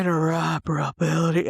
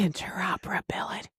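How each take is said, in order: First: Put-on sexy voice; playful mock seduction; trying-too-hard sexy. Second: Soft, unvoiced whisper; hushed, playful ASMR take. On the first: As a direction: say it seductively, overdoing it. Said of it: "I'm trying too hard". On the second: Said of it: "that was like A S M R".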